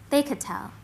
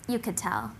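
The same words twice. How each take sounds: First: "They" pitched higher, then a fall; stress on THEY. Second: "you" said first, then falling low and soft; stress on YOU. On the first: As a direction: lift the word "They" to set it apart. Contrasts they with you. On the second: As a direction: drop "you could tell" down quietly. Contrasts you with they. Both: Acted.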